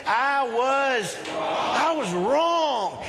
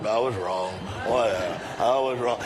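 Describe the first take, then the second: First: High, drawn-out emphatic declaration; like you mean it. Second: Low, grudging mock mumble; mumbled half-meant apology. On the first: Shown as a demonstration. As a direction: proclaim it slowly, leading the congregation. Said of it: "let's say it like you mean it". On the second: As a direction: imitate a dismissive, mumbled admission. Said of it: "The rest of us kinda mumble it".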